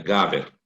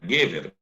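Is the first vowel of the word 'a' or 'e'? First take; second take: a; e. First: The first vowel is an a sound. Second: The first vowel is an e sound. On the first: The word stands at the end of a verse. "tu vai mudar essa primeira sílaba do E para A" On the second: This is the ordinary form of the word. "a palavra é gever"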